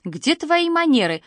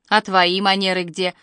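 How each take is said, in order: First: Higher, scolding lift on твои; grandma scolding the grandson for eyeing another's dessert; reproachful. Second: A touch of weary sorrow, sighing; grandma sighing sadly as dad stares at his phone; sorrowful sigh. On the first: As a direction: tell him off for his manners. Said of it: "укоризненно покачала головой бабушка". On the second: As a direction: sigh it out, disappointed in him. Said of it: "горестно вздохнула бабушка". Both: A narrator's reading.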